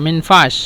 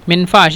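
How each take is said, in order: Both takes have the same delivery.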